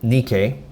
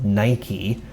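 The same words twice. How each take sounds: First: Nike is said with a non-English pronunciation. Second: Nike is said with an English pronunciation.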